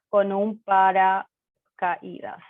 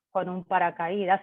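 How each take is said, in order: First: "con un paracaídas" said slowly, syllable by syllable; slow model phrase. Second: Said in the usual way. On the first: Shown as a demonstration. Teacher repeating "con un paracaídas" slowly for Spanish learners, slow and clear. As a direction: spell it out slowly for the class. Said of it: "teacher repeats phrase slowly". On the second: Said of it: "teacher gives phrase then repeats".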